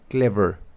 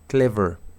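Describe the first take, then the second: Both takes have the same delivery.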